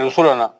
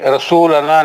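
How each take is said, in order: First: The vowel after the s is kept short. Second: The vowel after the s is drawn out long. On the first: The speaker calls it right. "वाव नहीं आएगा" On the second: The speaker calls it wrong. "रसूलना नहीं"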